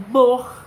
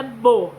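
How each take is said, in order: First: "bor" with the R rasped in the throat; pronouncing bor. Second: "bo" clipped open, no R at all; pronouncing bo. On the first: Teacher showing children the bor syllable, R rasped in throat. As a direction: sound out "bor", tickle the throat on the R. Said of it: "mas eu faço o som de bor". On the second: Teacher contrasting the wrong bo for children, no R. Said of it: "não é bo". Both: Shown as a demonstration.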